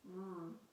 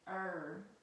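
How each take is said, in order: First: The r sound is said alone, without a vowel. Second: The r sound has a vowel sound before it. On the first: The speaker calls it right. "The R says R" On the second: The speaker calls it wrong. "It doesn't say er"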